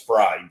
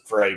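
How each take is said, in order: First: The vowel sounds like the one in 'fly'. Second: The vowel sounds like the one in 'day'. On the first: The speaker calls it right. "but it's fried" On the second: The speaker calls it wrong. "a lot of people pronounce it Fray"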